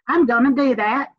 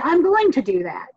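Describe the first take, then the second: First: Southern style, 'going to' reduced to 'gonna'. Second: Careful style, 'going to' fully pronounced.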